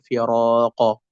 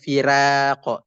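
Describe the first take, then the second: First: The r is pronounced thick and heavy. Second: The r is pronounced thin and light. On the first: The speaker calls it right. "tetap dibaca firaqa" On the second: The speaker calls it wrong. "tidak dibaca firaqa"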